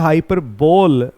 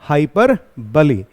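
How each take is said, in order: First: The word ends in an 'ole' sound. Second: The word ends in an 'ee' sound. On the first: The speaker calls it wrong. "बहुत सारे लोग इसका उच्चारण जो है हाइपरबोल भी करते हैं, लेकिन वो गलत होता है" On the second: The speaker calls it right. "इसका सही जो प्रोनाउंसिएशन है"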